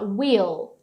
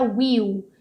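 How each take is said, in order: First: The final L is clearly held. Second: The final L is barely pronounced. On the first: The speaker calls it right. "segurando o L lá em cima" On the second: The speaker calls it wrong. "Não é will"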